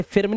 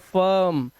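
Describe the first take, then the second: First: फिर्म with an i before r; wrong spelling pronunciation. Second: फर्म with an uh vowel; correct pronunciation. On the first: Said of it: "इसे फिर्म नहीं पढ़ेंगे". (फिर्म में इ की आवाज़) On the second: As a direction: draw out फर्म as furm. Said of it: "आई को इसने अ बना दिया". (फर्म में अ की आवाज़) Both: Shown as a demonstration.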